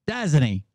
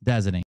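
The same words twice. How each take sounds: First: Pointed repeat. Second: Said in the usual way. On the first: Real, not acted. Repeats question pointedly after pause.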